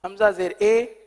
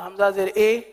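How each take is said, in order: The two takes are said the same way.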